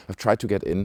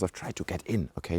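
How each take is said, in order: First: Said in the usual way. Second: Softer conspiratorial aside; hushed confession. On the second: Real, not acted. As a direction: let it slip quietly, just between us. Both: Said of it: "Don't tell anyone".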